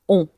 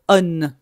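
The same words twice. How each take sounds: First: A nasal vowel is sounded with no N consonant. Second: A clear N consonant is sounded after the vowel. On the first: The speaker calls it right. "Je veux entendre on. Prononce pas le N" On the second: The speaker calls it wrong. "Je ne veux pas entendre on ici"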